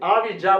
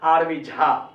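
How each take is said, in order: First: The surname starts with a plain j sound. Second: The surname starts with an aspirated jh sound. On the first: It is the English-style way of saying the name. "ऐसे आरवी जा बोलता हूं" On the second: It is the Hindi way of saying the name. "ये मैं नहीं बोलता हूं आरवी झा"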